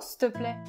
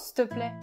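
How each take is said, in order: First: The phrase is shortened to 's'te plaît'. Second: The phrase is shortened to 's'te plaît'.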